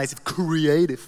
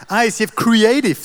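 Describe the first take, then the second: First: Said in the usual way. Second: Proud hype. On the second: Pretend. Proudly showing off his team.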